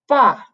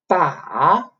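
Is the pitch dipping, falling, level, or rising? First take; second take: falling; dipping. First: The pitch falls downward. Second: The pitch dips down, then rises. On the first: "the fourth tone, which is like um, a descending line" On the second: "the third tone, which is like you go down a little bit and then go up"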